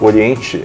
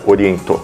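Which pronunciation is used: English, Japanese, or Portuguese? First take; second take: Portuguese; Japanese. First: The name is said the Portuguese way. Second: The name is said the Japanese way. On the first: "é a pronúncia em português" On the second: "a pronúncia no Japão é Oriento"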